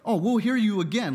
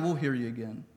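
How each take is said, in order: First: It sounds warm and eager, inviting a return. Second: It sounds polite but dismissive and uninterested. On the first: They genuinely want to hear more. "like, please come again" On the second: They are politely brushing him off. "Sounds more like just politely putting him off"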